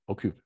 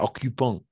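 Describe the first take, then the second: First: The written ending is silent. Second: The written ending is pronounced as a syllable. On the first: The speaker calls it right. "Parce que E N T à la fin, on ne prononce jamais" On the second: The speaker calls it wrong. "Pas occupant"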